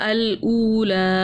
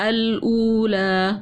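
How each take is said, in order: The two takes are said the same way.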